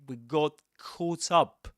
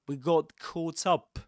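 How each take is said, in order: First: It is said with a British English accent. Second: It is said with a British English accent.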